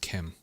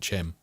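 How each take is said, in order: First: The word starts with a hard 'k' sound. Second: The word starts with a 'ch' sound. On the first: This is the intended pronunciation. "I think it's meant to be pronounced Kim" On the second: This is the speaker's habitual pronunciation. "I can't not pronounce it Chim because of the Mary Poppins thing"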